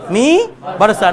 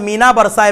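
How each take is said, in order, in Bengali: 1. n শুধু স্বরধ্বনিকে নাসিক্য করে। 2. n টি একটি পূর্ণ ব্যঞ্জনবর্ণ হিসেবে উচ্চারিত হয়। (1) "মিনা নয় মি বারসা" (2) "এটাকে মিনা পড়া ভুল"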